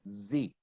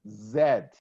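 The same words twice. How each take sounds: First: The letter is named the American way. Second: The letter is named the British way. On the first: "I never heard anybody saying Z" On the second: "they prefer to use the British form Z"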